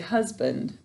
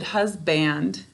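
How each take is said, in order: First: The second syllable has a reduced, weak vowel. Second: The second syllable has a full 'a' vowel. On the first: This is how the word sounds in normal speech. "When we're speaking, we say" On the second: This form helps with spelling the word. "is how we say it to spell it"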